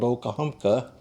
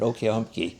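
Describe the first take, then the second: First: The name ends with an 'ah' sound. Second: The name ends with an 'ee' sound. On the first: This is not how people said it back then. "They didn't pronounce it that way" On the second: This is how local people said it back then. "with two E's at the end and two E's in the middle"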